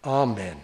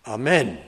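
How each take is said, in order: First: "amen" with the weight on "A", AH-men; stress on first syllable. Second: "amen" with the weight on "men", ah-MEN; stress on second syllable. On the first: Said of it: "the emphasis is on the first syllable". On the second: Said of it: "If you put it on the second syllable". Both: Shown as a demonstration.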